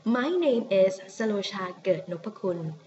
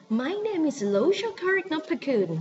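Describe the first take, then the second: First: "Sarosha Ket Nopakun" in Thai pronunciation within English; English sentence, "Sarosha Ket Nopakun" said the Thai way; Thai name unaltered. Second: High, swooping English accent on a Thai name; mock anglicised Thai name in English accent; overdone English accent. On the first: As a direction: keep "Sarosha Ket Nopakun" in a Thai accent, level pitch. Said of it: "So you can say". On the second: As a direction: wrongly force an English accent onto the name, pitched up. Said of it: "Please don't say". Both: Shown as a demonstration.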